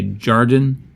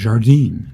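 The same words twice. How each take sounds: First: It is read with American English sounds. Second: It is said with French sounds. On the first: "if I'm just reading it phonetically as in, in English, in American English" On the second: "But I know French would be Jardin"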